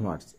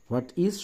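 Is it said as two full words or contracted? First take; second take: contracted; full. First: It is said as one contracted word. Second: It is said as two full words. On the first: The speaker calls it right. "এটার contraction বা short form হচ্ছে হোয়াটস" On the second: The speaker calls it wrong. "হোয়াট ইজ না বলে"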